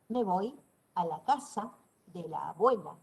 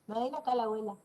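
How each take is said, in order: First: Each word is pronounced clearly and fully. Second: The words are reduced and run together. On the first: The speaker calls it right. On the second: The speaker calls it wrong.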